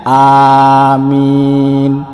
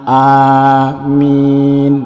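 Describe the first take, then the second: Both takes have the same delivery.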